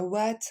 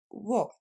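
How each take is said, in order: First: What dit avec un a ouvert, wat; mauvaise prononciation. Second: What dit avec un o, wot; bonne prononciation. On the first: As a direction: imiter la faute, wat. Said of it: "on va pas dire what". (what mal prononcé) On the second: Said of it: "mais what". (what bien prononcé) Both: Shown as a demonstration.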